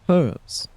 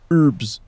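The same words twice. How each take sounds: First: The word is said the non-American way. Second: The word is said the American way. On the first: The speaker calls it right. "The old guy is not American. He pronounced it correctly. He said herbs" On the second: The speaker calls it wrong. "not herbs"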